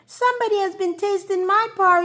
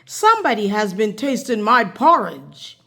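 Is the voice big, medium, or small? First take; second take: small; big. First: It is said in a small voice. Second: It is said in a great big voice.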